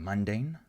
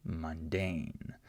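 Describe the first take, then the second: First: "mundane" stressed on the first syllable, MUN-dane; wrong stress on MUN. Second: "mundane" slowly, stressed on the second syllable, mun-DANE. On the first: Teacher shows what she's not saying, first syllable stressed in "mundane". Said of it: "I'm not saying mundane". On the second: Teacher models what she is saying, second syllable stressed in "mundane". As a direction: keep MUN light, stretch DANE in "mundane". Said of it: "I'm saying mundane". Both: Shown as a demonstration.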